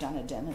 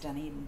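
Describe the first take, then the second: First: The name is said with the stress on the first syllable. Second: The name is said with the stress on the second syllable. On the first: The speaker calls it wrong. "which we couldn't even pronounce it correctly. We called it Dunedin" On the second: The speaker calls it right. "we learned quickly that it was Dunedin"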